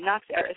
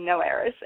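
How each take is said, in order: First: The first word ends with an x sound. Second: The first word ends without an x sound. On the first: The speaker calls it right. "You do pronounce the X" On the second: The speaker calls it wrong. "I didn't know if the X was pronounced or not, so I thought it was maybe No Heiress"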